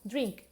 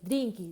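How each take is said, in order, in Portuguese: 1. A palavra termina limpa, no som do k. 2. Um som de vogal extra é acrescentado depois do k final. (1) "uma palavra em inglês" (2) "sempre adicionam uma vogal"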